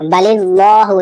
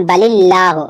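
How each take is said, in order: First: बलिल्लाहु with a heavy, full lam, the wrong way; बलिल्लाहु with the lam made heavy where it should be thin. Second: बलिल्लाहु with a thin, light lam; बलिल्लाहु with a thin lam after the zer. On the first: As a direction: say बलिल्लाहु thick and full-mouthed, as a mistake. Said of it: "इस तरह नहीं पढ़ना है". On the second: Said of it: "यहाँ बारीक होगा". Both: Shown as a demonstration.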